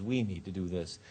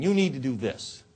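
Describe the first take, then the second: First: Lower, softer suggestion with "We"; inclusive. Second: Pointed "You", pressed on the listener; finger-pointing. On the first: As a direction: bring them gently in with you. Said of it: "Much more effective is". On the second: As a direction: order them about, a bit emphatically. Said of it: "with the finger pointing". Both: Shown as a demonstration.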